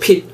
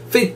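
First: The word begins with a p sound. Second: The word begins with an f sound. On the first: This is how Koreans say it. "우리만 핏이라 하죠" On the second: This is the standard pronunciation. "F로 시작하니까 정식적인 발음은 fit"

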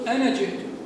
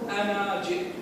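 First: The final vowel of ana is short. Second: The final vowel of ana is long. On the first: The speaker calls it right. "عليك أن تقول أنا جئت" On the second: The speaker calls it wrong. "ولا تقول أنا جئت"

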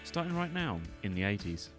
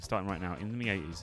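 First: The words are read at a slow pace. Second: The words are read at a fast pace. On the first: The speaker calls it right. "I'll try and slow myself down today" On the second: The speaker calls it wrong. "usually I'll be like"

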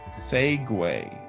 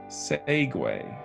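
First: The word ends with a 'way' sound. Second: The same.

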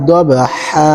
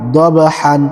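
First: The word ends on a long a vowel. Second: The word ends with an n sound. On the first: The reading stops at this word. "ওয়াকফ করলে এক জবর দিবর্ত হবে" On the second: The reading continues past this word. "হা আলিফ দুই জবর হান"

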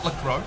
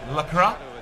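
First: The name ends with an 'oh' vowel. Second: The name ends with an 'ah' vowel. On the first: The speaker calls it wrong. "It is not Lacro" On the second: The speaker calls it right. "it is Lacra"

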